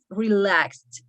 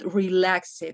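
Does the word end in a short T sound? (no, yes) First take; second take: yes; no. First: The ending is a short T sound. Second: The ending is not a short T sound. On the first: The speaker calls it right. "just relaxed, like a little T at the end" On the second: The speaker calls it wrong. "not relaxed"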